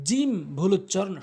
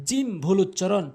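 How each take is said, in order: Both takes have the same delivery.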